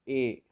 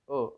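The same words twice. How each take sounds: First: It sounds like the letter name 'ay'. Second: It sounds like a short, weak 'uh'. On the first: The speaker calls it wrong. "never pronounce this particular word as a" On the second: The speaker calls it right. "It is a"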